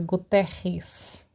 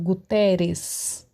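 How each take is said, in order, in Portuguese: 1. O r vem do fundo da garganta. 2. O r é um toque leve na frente. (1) "aquele som que sai lá do fundo da garganta" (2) "Você vê que eu não falo Guterres"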